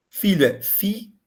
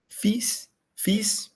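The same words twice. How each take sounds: First: Said in the usual way. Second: Fils said as fis, silent l, high pitch; French fils. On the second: Shown as a demonstration. Teacher corrects herself, models fils for students. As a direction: say fils without the l. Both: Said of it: "Olha lá, como F I S".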